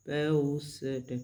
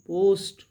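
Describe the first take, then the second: First: पोस्ट very slowly with a long ओ; drawn-out word. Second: Said in the usual way. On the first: Shown as a demonstration. Teacher slowing पोस्ट to show the ओ sound. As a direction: stretch the ओ in पोस्ट. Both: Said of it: "तो यहाँ भी ओ की ही sound है".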